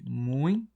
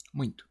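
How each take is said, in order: First: "Muito" broken up, "mui" held long, then "to"; split into syllables. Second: Said in the usual way. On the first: Shown as a demonstration. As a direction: pull "Muito" apart into mui... to. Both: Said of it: "Vamos separar aqui".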